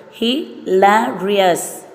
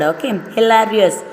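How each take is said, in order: First: "hilarious" split into four slow beats; slow syllable by syllable. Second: Said in the usual way. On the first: Shown as a demonstration. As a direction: drag out "hilarious" beat by beat. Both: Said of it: "four syllable".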